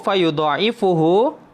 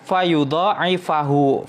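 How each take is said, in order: First: The vowel before the final -hu is 'u'. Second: The vowel before the final -hu is 'a'. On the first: Whoever lends to God will have it multiplied. "Kalau dibaca marfu" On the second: The sentence asks who will lend to God. "yang menasabkan fi'il mudhari setelahnya"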